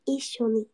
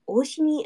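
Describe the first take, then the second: First: The word starts with an 'ee' sound. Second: The word starts with an 'oh' sound. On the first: The speaker calls it right. "just flip-flop those sounds, and it's that" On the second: The speaker calls it wrong. "I keep wanting to say, like, almost saying, like, oshini, and I know that's not right"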